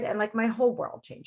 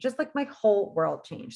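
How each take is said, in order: First: Said in the usual way. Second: "my whole world changed" slowed and weighted word by word; slower, emphatic repeat. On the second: Shown as a demonstration. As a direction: lean into "whole" and let it land.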